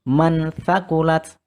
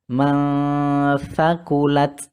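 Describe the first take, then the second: First: The n before th is pronounced clearly. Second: The n is hidden with a nasal hum. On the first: The speaker calls it wrong. "bukan mansakulat. Nah, bukan seperti itu" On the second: The speaker calls it right. "dibaca samar disertai dengan dengung"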